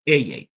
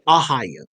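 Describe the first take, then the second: First: It is said ending in a t sound. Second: It is said with a middle h sound. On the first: The language itself pronounces it this way. "the Hebrew language itself, pronounce it as Eyet" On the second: One group pronounces it this way. "They say Ahaya. That's how some Hebrew counts pronounce it"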